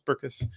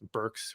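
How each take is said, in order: First: The name is said as two syllables. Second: The name is said as one syllable. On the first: The speaker calls it right. "it's two syllables" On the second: The speaker calls it wrong. "one syllable a lot"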